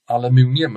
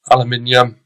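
First: "aluminium" as al-uh-MOON-ee-um; an OO in the stressed syllable of "aluminium", MOON; attempted American pronunciation. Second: "Aluminium" as al-uh-MIN-ee-um; short I in the stressed MIN of "Aluminium"; British pronunciation. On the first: Teacher guessing at Americans' way, "aluminium" with MOON. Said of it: "I can't remember how they say aluminium". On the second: Teacher contrasting two ways to say it, "Aluminium" with MIN. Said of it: "say things slightly differently". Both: Shown as a demonstration.

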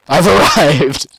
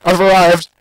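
First: Drawn out through laughter; laughing slow announce. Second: Triumphant announce. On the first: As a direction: stretch it slowly while laughing. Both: Pretend.

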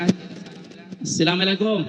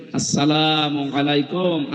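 First: "আসসালামু আলাইকুম" garbled as "slamelekom"; mispronounced salam. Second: "আসসালামু আলাইকুম" slow, every syllable full; correctly pronounced salam. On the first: Retold or imitated. Preacher mimics educated people greeting, "আসসালামু আলাইকুম" mispronounced as "slamelekom". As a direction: slur "আসসালামু আলাইকুম" into "silame-lekom", mock imitation. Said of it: "এখনো শুদ্ধ উচ্চারণে হয় না".

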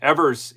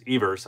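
First: Evers said EV-ers, short e as in "ever"; mispronounced Evers. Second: Evers said EE-vers, long ee as in "eve"; corrected Evers. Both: Real, not acted. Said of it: "Evers, I'm sorry".

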